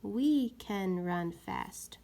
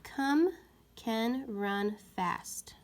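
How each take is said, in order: First: We can run fast read slowly and firmly; slow clear trial reading; trying out a sentence. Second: Slow hushed wrong trial; trying out a sentence. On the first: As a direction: read the right fit carefully. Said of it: "Let's try the word we". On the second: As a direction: test the wrong word. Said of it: "put the word come in the sentence". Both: Shown as a demonstration.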